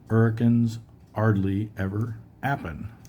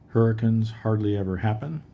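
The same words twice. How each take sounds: First: It is said in Eliza Doolittle's Cockney accent. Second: It is said in standard English accent.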